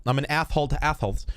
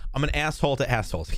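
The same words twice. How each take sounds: First: Asshole and assholes said with th for s, athhole; lisp. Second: Said in the usual way. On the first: Shown as a demonstration. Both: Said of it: "Apparently developed a lisp as well".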